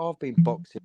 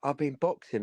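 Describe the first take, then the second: First: "I've been boxing." echoed back higher and louder in mockery; mocking echo. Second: Said in the usual way. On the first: Throwing the pub guy's boast back at him, mocking. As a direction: parrot his boast to mock him. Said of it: "And I was like". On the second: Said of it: "and he was like".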